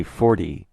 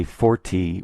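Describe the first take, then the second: First: "forty" with the T softened to a D; everyday "forty" with a flapped T; soft D-like T in forty. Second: "forty" with a hard, crisp T; over-careful "forty", spelled-out T sound. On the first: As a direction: say "forty" casually, like for-dee. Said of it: "we say forty". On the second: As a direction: say "forty" as four-tee, the T fully sounded. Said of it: "We don't say forty". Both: Shown as a demonstration.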